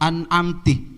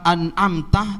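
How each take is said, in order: First: The final syllable has an 'i' vowel. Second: The final syllable has an 'a' vowel. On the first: It addresses a woman. The speaker calls it wrong. "dibaca kasroh, an'amtih" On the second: It addresses a man. The speaker calls it right. "yang asalnya itu tak dibaca fathah"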